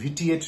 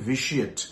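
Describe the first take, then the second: First: The middle consonant is a t sound. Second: The middle consonant is a sh sound. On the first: The speaker calls it wrong. "ভিটিএট নয়" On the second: The speaker calls it right. "উচ্চারণটা হবে ভিশিয়েট"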